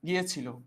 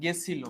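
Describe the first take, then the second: First: The word is said in its full form. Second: The word is said in a shortened form. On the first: This is the standard form. "পরিমিততে লিখি বলি হচ্ছে গিয়েছিল" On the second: This is the colloquial form. "একটা শব্দ লিখলাম গেছিল"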